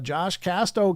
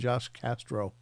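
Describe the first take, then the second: First: The surname is said without an R sound. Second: The surname is said with an R sound. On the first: The speaker calls it right. "Do you see that I pronounce it right now" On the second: The speaker calls it wrong. "everybody calls him Josh Castro"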